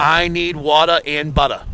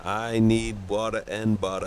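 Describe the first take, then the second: First: Slow Boston accent demo. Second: Put-on softer Boston accent try; attempted Boston accent. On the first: Shown as a demonstration. Co-host giving a phrase to repeat, slow Boston accent. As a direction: model it slowly in Boston. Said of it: "Like this, ready?". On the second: Friend repeating on command, softer attempted Boston accent. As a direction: echo it softly in Boston. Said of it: "Say it".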